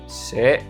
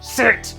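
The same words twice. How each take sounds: First: The word is said in a calm, normal voice. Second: The word is said loudly with a raised voice. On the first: A plain command that gets ignored. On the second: The speaker is frustrated and finally gets obeyed.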